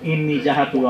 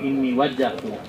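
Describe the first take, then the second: First: The second word lacks the doubled 'wajj' opening sound. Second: The second word opens with a doubled 'wajj' sound. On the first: The speaker calls it wrong. "ইন্নি জাহাতু আমরা পড়িলাম" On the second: The speaker calls it right. "এইকো আপনি কই ইন্নি ওয়াজ্জাহতু"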